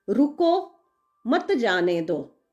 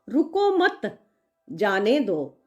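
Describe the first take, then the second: First: The pause comes right after 'ruko'. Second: The pause comes right after 'mat'.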